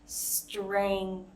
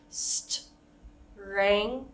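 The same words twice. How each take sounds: First: Strength spoken slowly, every sound through; walk through each sound of strength; careful slow strength. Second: Strength split into parts with pauses; chopped into pieces; broken up. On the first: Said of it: "we can slow it down". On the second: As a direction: pause after each part of strength. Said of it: "we can even break it up". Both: Shown as a demonstration.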